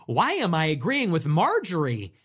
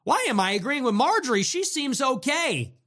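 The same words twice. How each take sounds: First: Lightly mocking a puzzled liberal, flat. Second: Higher, stress on Why, mock bafflement; mock baffled liberal. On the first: Liberal viewers mock-wondering aloud, lightly puzzled. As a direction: muse it to yourself in mild disbelief. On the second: Liberal viewers repeating it, higher and more baffled. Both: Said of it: "started to say".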